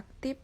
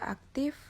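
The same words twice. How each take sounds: First: "aktif" said as "aktip"; "aktif" with its final F turned into P; non-standard pronunciation. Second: Said in the usual way. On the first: Shown as a demonstration. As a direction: end "aktif" on a P sound. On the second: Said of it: "contoh kata baku dan kata".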